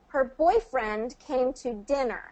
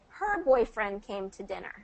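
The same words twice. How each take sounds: First: The stress falls on boyfriend and dinner. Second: The stress falls on the word her. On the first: "we're stressing boyfriend and dinner" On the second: "if we're wanting to emphasize her"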